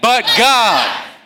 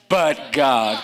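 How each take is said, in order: First: It is said louder and more forcefully. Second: It is said at a normal, softer strength. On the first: The speaker calls it right. "say it stronger than that" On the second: The speaker calls it wrong. "Say it with me"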